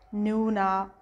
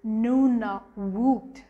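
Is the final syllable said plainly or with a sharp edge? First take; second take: plain; sharp. First: The final syllable is said plainly, as spelled. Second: The final syllable is said with a sharp edge. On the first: The speaker calls it wrong. "when you read exactly as it is, it's like Nunavut" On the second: The speaker calls it right. "you have to give a bit of edge to that woot"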